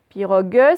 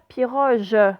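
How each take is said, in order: First: The g is hard, as in go. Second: The g is soft, like the s in measure. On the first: The speaker calls it right. "je suis obligée d'avoir mon U si je veux le son G" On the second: The speaker calls it wrong. "si je mets un E directement, ça va me faire piroge"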